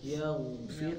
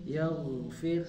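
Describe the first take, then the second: Both takes have the same delivery.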